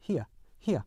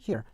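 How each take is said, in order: First: British here as "hee-uh", no R; British non-rhotic. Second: American here, single vowel plus R. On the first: Teacher recaps for learners, British R-less here. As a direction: glide here into a schwa, British style. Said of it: "영국 표준 영어에서는". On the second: Teacher recaps for learners, American rhotic here. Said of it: "일반 미국 영어에서는". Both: Shown as a demonstration.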